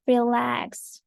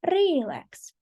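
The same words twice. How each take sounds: First: "Relax" with the weight on LAX; second-syllable stress. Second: "relax" wrongly stressed on RE; stress on first syllable. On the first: Teacher giving the correct example, "Relax" stressed on the second syllable. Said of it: "the stress is on the second syllable". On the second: Teacher showing something different, "relax" wrongly stressed on its first syllable. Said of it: "but if I say relax". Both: Shown as a demonstration.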